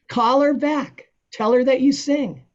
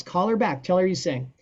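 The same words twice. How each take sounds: First: Excited urging. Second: Said in the usual way. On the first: Retold or imitated. Friend urging him to take gig.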